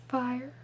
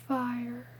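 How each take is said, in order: No difference in how they are said.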